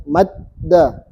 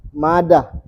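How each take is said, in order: First: "Madda" with the d doubled and held; pressed d. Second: "Mada" with a single, unstressed d; without tasdid. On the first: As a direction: split "Madda" as mad-da, pausing on the closed d. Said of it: "maka dalnya ditekan". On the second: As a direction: say "Mada" with no doubling of the d. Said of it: "Tapi kalau ada tasdidnya". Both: Shown as a demonstration.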